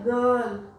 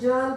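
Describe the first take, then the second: First: The word begins with a hard g sound. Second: The word begins with a soft j sound. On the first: The speaker calls it right. "लेकिन हम क्या बोलते हैं" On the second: The speaker calls it wrong. "हमें जर्ल बोलना चाहिए, नहीं"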